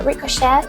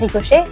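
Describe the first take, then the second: First: It is pronounced with an English accent. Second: It is pronounced with a French accent. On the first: "ça se dit aussi bien en anglais" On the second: "et aussi bien en français"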